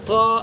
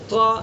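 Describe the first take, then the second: The two takes are said the same way.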